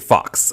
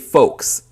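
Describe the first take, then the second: First: The vowel is a short 'ah' sound. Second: The vowel is a long 'oh' sound. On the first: The speaker calls it wrong. "she didn't know how to pronounce it ... was pronouncing it Fox" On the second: The speaker calls it right. "she was trying to say folks"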